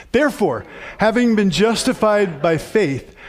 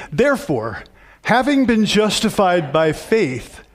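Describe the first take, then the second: The two takes are said the same way.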